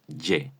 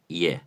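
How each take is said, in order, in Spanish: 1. Empieza con una consonante 'y' zumbante, al estilo español. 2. Empieza con un deslizamiento suave de 'i' hacia 'e'. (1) "tampoco es Y, como a veces pronunciamos nosotros la Y" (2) "como si fuese una I más una E"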